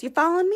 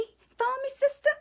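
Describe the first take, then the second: First: Said in the usual way. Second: Much higher, teasing sing-song; sassy high "sister" call; playful sassy check-in. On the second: Acted. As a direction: tease the viewers like a girlfriend.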